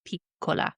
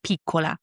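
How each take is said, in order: First: "piccola" with the first vowel as she said it; pronunciation contrast. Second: "piccola" with the other first vowel, as corrected; pronunciation contrast. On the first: Woman showing her version, contrasted first vowel in "piccola". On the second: Woman showing date's version, contrasted first vowel in "piccola". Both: Shown as a demonstration. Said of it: "E instead of E".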